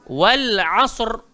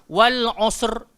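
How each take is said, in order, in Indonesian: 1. Vokal dalam asr terdengar terbuka, seperti a. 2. Vokal dalam asr terdengar membulat, seperti o. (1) "Dia kena bunyi a" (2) "jangan baca wal asr, tak betul"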